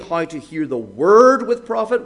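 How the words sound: The word word is stressed. The point is what is to be listened to. "what we're to hear"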